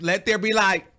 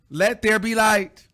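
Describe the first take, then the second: First: Said in the usual way. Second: Slow and grand, higher and louder, leaning on there; drawn-out proclamation. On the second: Shown as a demonstration. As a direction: proclaim let there be light like scripture.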